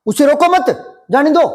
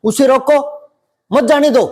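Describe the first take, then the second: First: उसे रोको मत run together, then जाने दो; pause after मत. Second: उसे रोको, then a break before मत जाने दो; pause after रोको. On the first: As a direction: join मत to रोको, break before जाने दो. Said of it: "अगर वो यहां अटक गया". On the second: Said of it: "वो थोड़ा सा यहां अटक गया". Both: Shown as a demonstration.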